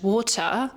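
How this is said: British accent with a sharp rise and drop. "in British English, water is more like this sharp rise and this sharp drop"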